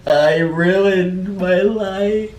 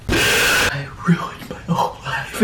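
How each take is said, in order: First: Mock despair. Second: Half-laughing hushed wail; giggling whisper of mock despair.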